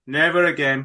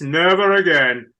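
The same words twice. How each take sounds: First: Said in the usual way. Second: "Never again" with "Never" hit hard and loud; emphatic vow. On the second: Real, not acted. Host recalling book tours, emphatic. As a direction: slam the word "Never". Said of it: "get into loads of political discussions".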